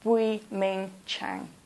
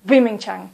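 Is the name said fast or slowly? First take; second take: slow; fast. First: The name is said slowly and clearly. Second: The name is said quickly. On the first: The speaker calls it right. "I want you to say the name clearly" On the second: The speaker calls it wrong. "please don't speak quickly. Don't say"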